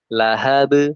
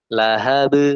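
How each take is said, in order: The two takes are said the same way.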